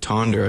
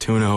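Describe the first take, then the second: First: The name has an English-style pronunciation. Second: The name has a local Danish pronunciation. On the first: This is how outsiders say the name. "is how we would pronounce it" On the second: This is how locals say the name. "It's pronounced tuna over there"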